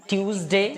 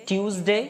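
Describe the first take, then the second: The two takes are said the same way.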